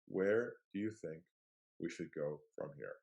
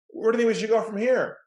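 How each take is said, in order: First: The question is asked in a soft, open tone. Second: The question is asked in a forceful, pushy tone. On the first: The listener feels free to say what they really think. The speaker calls it right. "that tonality and that delivery gives them permission now to step forward" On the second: The listener feels pressured and closes off. The speaker calls it wrong. "The wall goes up, they shut down"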